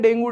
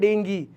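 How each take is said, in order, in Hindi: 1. यह शब्द 'oo' स्वर पर समाप्त होता है। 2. यह शब्द 'ee' स्वर पर समाप्त होता है। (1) "हम लोग जनरली बोल देते हैं डेंगू, डेंगू वो सही प्रोनाउंसिएशन नहीं है" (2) "वैसे उसको प्रोनाउंस करते हैं डेंगी"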